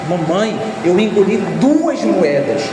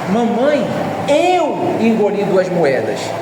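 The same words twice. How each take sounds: First: The stress falls on the word duas. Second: The stress falls on the word eu. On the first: The number of coins is the point. "Onde é que está a ênfase? Que foram duas" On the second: Who did it is the point. "A ênfase está em mim, fui eu que fiz isso"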